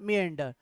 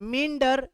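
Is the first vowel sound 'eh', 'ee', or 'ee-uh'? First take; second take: ee-uh; ee. First: The first vowel glides from 'ee' into 'uh'. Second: The first vowel is a single 'ee' sound. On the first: "दोनों ही sound करने ही पड़ेंगे आपको, तो यहां पर बनेगा मियंडर" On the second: "मिंडर आई वाला मिंडर"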